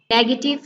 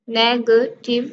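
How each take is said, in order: First: Said in the usual way. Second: "नेगेटिव" in three pieces, ne-ga-tive; split into syllables. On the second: Shown as a demonstration. Teacher showing three syllables in negative, each separated. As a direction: break "नेगेटिव" with a gap after each syllable. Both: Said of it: "three syllables हैं".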